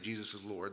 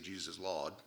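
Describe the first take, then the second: First: It is said in a standard accent. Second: It is said in a Maine accent.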